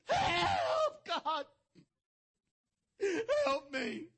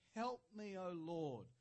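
First: It is cried out in a desperate tone. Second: It is said in a solemn, poetic tone.

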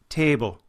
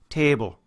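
First: It is said in an Irish accent. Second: It is said in an Irish accent.

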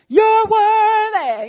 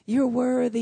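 First: It is said loudly, standing out. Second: It is said quietly, blending in.

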